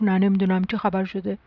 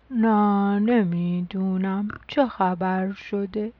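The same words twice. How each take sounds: First: Low, lightly drowsy reply; sleepy. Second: Very slow, drawn-out drowsy voice; sleepy. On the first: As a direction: answer with a touch of sleepiness. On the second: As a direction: drag the words out as if half asleep. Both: A narrator's reading.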